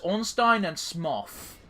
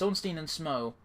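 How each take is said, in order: First: The last name ends with an f sound. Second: The last name ends on a vowel. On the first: The speaker calls it wrong. "she goes Ornstein and Smoff" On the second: The speaker calls it right. "it's Ornstein and Smo"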